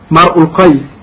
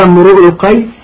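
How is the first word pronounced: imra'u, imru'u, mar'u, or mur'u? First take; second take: mar'u; imru'u. First: The first word is said as mar'u. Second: The first word is said as imru'u. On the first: "بفتح الميم وضم الهمزة" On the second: "بضم الراء"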